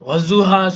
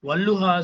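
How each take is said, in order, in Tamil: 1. நடுவில் உள்ள மெய் இரட்டித்த s ஒலி. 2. நடுவில் உள்ள மெய் இரட்டித்த l ஒலி. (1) "வஸ்ஸுஹா சொல்றதும் தப்பு" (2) "வல்லுஹா சொல்றதும் தப்பு"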